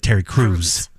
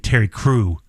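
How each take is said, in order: First: The name ends with an s sound. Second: The name ends without an s sound. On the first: The speaker calls it right. "There's an S at the end of his name" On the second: The speaker calls it wrong. "how you say Terry Crew"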